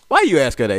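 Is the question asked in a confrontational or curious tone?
confrontational. It is asked in a confrontational, accusing tone.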